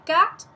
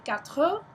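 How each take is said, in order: First: The word stops abruptly after the t. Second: The word ends with a full final vowel. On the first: This is the northern way of saying it. "In the north they say quatre and they stop" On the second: This is the southern way of saying it. "In the south they say quatre"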